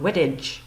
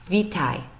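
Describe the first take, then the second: First: The word is said with English-style sounds. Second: The word is said with Polish-style sounds. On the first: The speaker calls it wrong. "if we pronounced it how it looks, based on how we use the alphabet" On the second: The speaker calls it right. "the way that they pronounce it"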